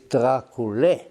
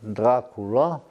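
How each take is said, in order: First: The name ends with an 'eh' vowel. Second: The name ends with an 'ah' vowel. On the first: This is the original Romanian form of the name. The speaker calls it right. "the Romanian uh, pronunciation, which is Dracule" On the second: This is the changed form known around the world. The speaker calls it wrong. "now it's universally known as Dracula"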